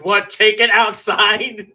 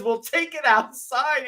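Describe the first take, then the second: First: High, loud, slow teasing take on take it outside; mock joke quote. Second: Said in the usual way. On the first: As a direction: drag out take it outside as a jeer. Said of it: "someone made the joke". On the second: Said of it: "someone says".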